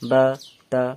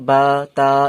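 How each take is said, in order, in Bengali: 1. স্বরগুলো ছোট আর তাড়াতাড়ি বলা হয়। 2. স্বরগুলো লম্বা করে টেনে বলা হয়। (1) "শুধু তাড়াতাড়ি বলে দেবেন" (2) "এমনি টান দিয়ে বলবেন না"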